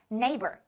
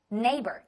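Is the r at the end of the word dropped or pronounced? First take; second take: pronounced; pronounced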